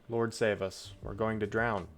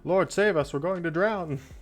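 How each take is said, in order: First: It is read in a calm, even voice. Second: It is shouted in a frantic, urgent voice. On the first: The speaker calls it wrong. "They didn't say it in that intonation" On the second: The speaker calls it right.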